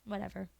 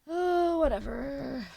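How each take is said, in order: First: Said in the usual way. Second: Oh jumps high and loud, whatever falls away; sarcastic sing-song "Oh, whatever."; mock sarcastic whatever. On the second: Shown as a demonstration. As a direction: toss it off with a hammed-up flourish. Repeats whatever, then mocks it.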